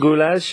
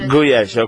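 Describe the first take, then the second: First: It is pronounced as in English spelling. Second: It is pronounced as in Hungarian. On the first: The speaker calls it wrong. "I say it the way it's written. Obviously, I'm saying it wrong" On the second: The speaker calls it right. "that's the proper way"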